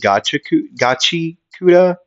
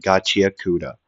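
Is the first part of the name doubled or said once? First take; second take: doubled; once. First: The first part of the name is doubled. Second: The first part of the name is said once. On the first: "but I like saying" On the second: "I know how to say it correctly"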